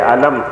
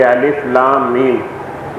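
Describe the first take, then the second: First: The letters are blended into one short word. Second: Each letter name is spoken separately. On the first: It is read as an ordinary written word. "मिला के लिख दूँ तो आप उसे पढ़ेंगे अलम" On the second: It is read as separate Quranic letters. "अलग अलग करके हरूफ अदा किए जाएंगे"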